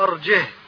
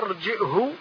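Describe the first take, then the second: First: It has no glottal stop in the middle. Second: It has a glottal stop in the middle.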